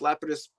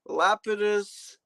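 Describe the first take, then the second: First: It is said without a British accent. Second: It is said in a British accent. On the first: The speaker calls it right. "But no" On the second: The speaker calls it wrong. "as the the Brits would say"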